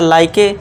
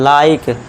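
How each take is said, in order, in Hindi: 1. k के बाद अंतिम स्वर ध्वनि बोली जाती है। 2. शब्द k पर खत्म होता है, उसके बाद कोई स्वर नहीं है। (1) "वैसे देखा जाए तो इसका साउंड होना चाहिए था लाइके" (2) "ई है ही नहीं ऐसा मान लीजिए"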